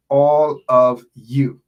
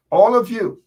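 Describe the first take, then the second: First: "all of you" slow and loud, each word leaned on; emphasized phrase. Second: "All of you" called out much higher and louder; emphatic call-out. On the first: Thanking supporters, stressing "all of you" slowly and loudly. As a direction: drag out "all of you", louder, with weight on every word. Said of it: "I emphasize the operative words there". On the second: Rallying supporters, calling out "All of you" high and loud. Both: Real, not acted.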